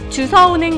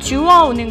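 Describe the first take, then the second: First: The verb is said with an s sound. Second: The verb is said with a w sound. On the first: The speaker calls it wrong. "주서가 아니라" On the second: The speaker calls it right. "표준어는 … 주어입니다"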